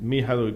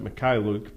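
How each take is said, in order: First: The middle consonant is a soft 'h' sound. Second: The middle consonant is a harsh 'kh' sound. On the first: This is how the player himself says it. The speaker calls it right. "Mihailuk is the correct pronunciation" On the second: This is how others usually say it. The speaker calls it wrong. "they always pronounce it Mikhailuk"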